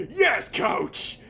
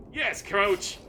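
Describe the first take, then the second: First: A loud, high yelled answer to the coach; eager shout. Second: Eager reply. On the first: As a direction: shout it back like a recruit. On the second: Lawnmower answers again. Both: Acted.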